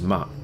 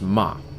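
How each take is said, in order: First: The pitch is short and unmarked. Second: The pitch drops sharply from high. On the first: "the neutral tone, which has no tone to it" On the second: "The dropping tone is uh, the fourth tone"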